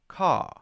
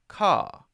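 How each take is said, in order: First: The R at the end is weak and flat. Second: The R at the end is weak and flat.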